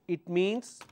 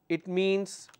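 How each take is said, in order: The two takes are said the same way.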